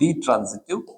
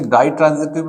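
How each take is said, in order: First: The first syllable sounds like 'dee'. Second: The first syllable sounds like 'dye'. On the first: The speaker calls it right. "इसका सही उच्चारण हो गया वो डी ट्रांज़िटिव verb" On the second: The speaker calls it wrong. "कई लोग इसे डाई ट्रांज़िटिव भी बोलते हैं"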